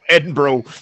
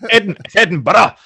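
First: The city name gets an American-style pronunciation. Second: The city name gets its local Scottish pronunciation. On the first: The speaker calls it wrong. "not Edinburgh" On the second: The speaker calls it right. "yes, Edinburgh"

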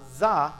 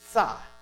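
First: It begins with a buzzing z sound. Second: It begins with a t-like ts sound. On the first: The speaker calls it wrong. "not za" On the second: The speaker calls it right. "Imagine put a T and a Z"

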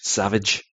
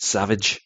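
First: The name is pronounced the English way. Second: The same.

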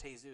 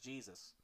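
First: The name begins with an H sound. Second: The name begins with a J sound. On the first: This is how the name's bearer says it. "it's pronounced Jesus" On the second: This is how the English spelling reads. "that says Jesus"

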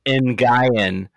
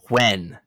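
First: The name does not sound like the word when. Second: The name sounds exactly like the word when. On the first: The speaker calls it wrong. "Not Nguyen, as the narrator said throughout the entire book" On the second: The speaker calls it right. "It is pronounced when, like, when are we going to the store?"

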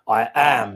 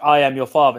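First: It is said in a gravelly, rough voice. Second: It is said in a smooth, ordinary voice.

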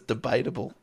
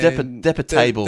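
First: The word is said as 'debatable'. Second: The word is said as 'depa table'. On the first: The speaker calls it right. "It was debatable. I don't know how I got that wrong" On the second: The speaker calls it wrong. "all of you were pronouncing it wrong"

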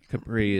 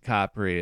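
First: It is said the anglicized way. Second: It is said the Italian way. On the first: "Capri is the anglicized one" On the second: "I think Capri is the Italian pronunciation"

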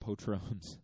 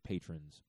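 First: The word is said Spanish-style, like the tequila brand. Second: The word is said with ordinary English pronunciation.

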